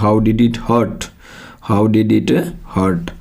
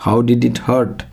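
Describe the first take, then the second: First: Slow, hurt said as "hət" with no R sound; hurt without R. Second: Hurt said with a rolled R, like हर्ट; hurt with the R sound in it, हर्ट. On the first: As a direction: drop the R in hurt, stretch it slowly. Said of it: "आर की जगह ए की sound आती है". (hurt को बिना आर के, धीरे-धीरे "हट" जैसा) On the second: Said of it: "इसको हर्ट मत बोलना". (hurt में आर की आवाज़ के साथ) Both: Shown as a demonstration.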